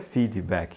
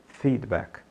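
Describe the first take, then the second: First: Extra vowel sounds follow the d and k. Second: The d and k have no added vowel. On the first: The speaker calls it wrong. "Não diga feedback" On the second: The speaker calls it right. "Diga feedback"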